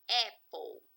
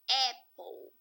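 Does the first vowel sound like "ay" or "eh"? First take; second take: eh; eh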